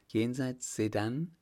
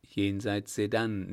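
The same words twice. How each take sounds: First: "Jenseits Sedan" asked with a rising end; questioning echo. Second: "Jenseits Sedan" confirmed with a falling end; confirming statement. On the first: She checks where they were buried, questioning "Jenseits Sedan". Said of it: "Jenseits Sedan“, nickte er". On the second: He nods in answer to her, confirming "Jenseits Sedan". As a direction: let "Sedan" drop as a settled answer. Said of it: "nickte er". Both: A narrator's reading.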